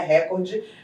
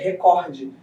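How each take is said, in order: First: The stress falls on the first syllable. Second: The stress falls on the second syllable. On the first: The speaker calls it wrong. "Recorde não existe" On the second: The speaker calls it right. "é recorde"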